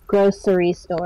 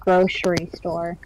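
First: Grocery is said with an S sound. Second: Grocery is said with an SH sound. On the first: "with an S" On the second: "instead of an SH pronunciation"

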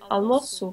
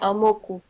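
First: The middle consonant sounds like S. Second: The middle consonant sounds like K. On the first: "that makes it you have to pronounce it as S" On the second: "If it didn't have that, you would say almoco"

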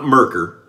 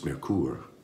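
First: The word is said with an American pronunciation. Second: The word is said with a German pronunciation. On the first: The speaker calls it wrong. "it's not Merkur, even though we're in America" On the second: The speaker calls it right. "I asked a native German speaker who lives in Germany how to pronounce it"

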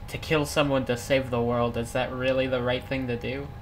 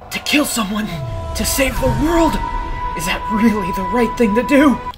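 First: It is read in the speaker's plain voice. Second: It is said in an imagined Silver voice.

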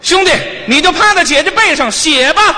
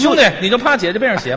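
First: It is said at a higher, raised pitch. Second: It is said at a lower, plainer pitch.

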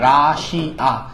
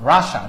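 First: The word ends with a 'shiya' sound. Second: The word ends with a short 'sha' sound. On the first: The speaker calls it wrong. "এই যে আমরা যেভাবে বলি রাশিয়া, উচ্চারণটা রাশিয়া না" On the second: The speaker calls it right. "উচ্চারণটা রাশা"

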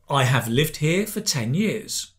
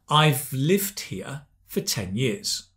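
First: The words 'I have' are said in full. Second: The words 'I have' are contracted to 'I've'.

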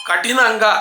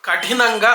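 Both takes have the same delivery.

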